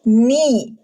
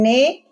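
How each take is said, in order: First: The syllable ends in a clear i vowel. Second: The syllable ends in an e vowel. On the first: The speaker calls it right. "Nun kasrah, ni" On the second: The speaker calls it wrong. "Jangan ne"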